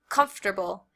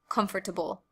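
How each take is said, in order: First: The word is said with three syllables. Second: The word is said with four syllables. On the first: "I usually pronounce it with three syllables" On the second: "instead of four"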